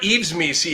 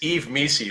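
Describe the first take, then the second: First: The first name ends with an s sound. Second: The first name ends without an s sound. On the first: The speaker calls it wrong. "it's not Eves Misi" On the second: The speaker calls it right. "it's Eve Misi"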